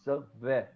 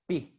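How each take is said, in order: First: A smooth, continuous v sound is made. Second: A strong, stopped b sound is made. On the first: The letter has no dagesh. "bet without dagesh has V sound, the smooth sound" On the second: The letter has a dagesh. "bet with the dagesh becomes strong sounds like b"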